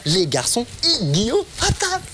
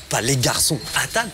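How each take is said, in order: First: "et Guillaume" lifted high as the point; stress on et Guillaume. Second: Said in the usual way. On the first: Shown as a demonstration. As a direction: hit "et Guillaume" higher than the rest.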